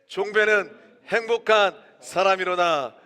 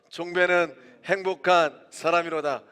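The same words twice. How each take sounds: First: It is shouted even more loudly. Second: It is shouted at a normal shouting loudness.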